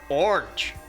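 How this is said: It is said with an American accent.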